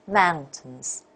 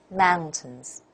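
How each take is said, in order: The two takes are said the same way.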